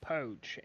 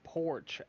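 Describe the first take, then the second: First: The r sound after the vowel is dropped. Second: The r sound after the vowel is pronounced. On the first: The speaker calls it wrong. "I said poach" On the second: The speaker calls it right. "Instead of saying porch"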